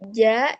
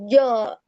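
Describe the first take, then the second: First: The syllable is light with a thin vowel. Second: The syllable is heavy with a thick, rounded vowel. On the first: The speaker calls it right. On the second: The speaker calls it wrong.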